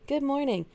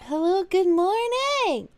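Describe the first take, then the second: First: Said in the usual way. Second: High, slow and drawn-out hello; sing-song greeting. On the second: Acted. Streamer greets chat with a high, slow sing-song hello. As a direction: stretch the greeting out like a cheerful host.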